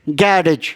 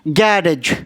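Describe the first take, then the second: First: It is said with a British pronunciation. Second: The same.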